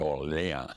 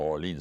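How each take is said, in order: First: The name is said the French way. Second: The name is said the English way. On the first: The speaker calls it right. "c'est Orléans" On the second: The speaker calls it wrong. "C'est pas Orleans"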